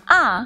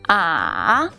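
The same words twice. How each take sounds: First: The pitch falls sharply from high to low. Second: The pitch falls low, then rises again. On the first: "Ah is the fourth tone. The fourth tone is a falling tone" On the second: "ah is the third tone. The third tone falls first and then rises"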